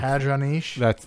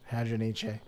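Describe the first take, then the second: First: The final e is silent, French-sounding. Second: The final e is pronounced as a syllable. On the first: The speaker calls it wrong. "That sounds too French" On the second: The speaker calls it right. "I think you need to pronounce the E"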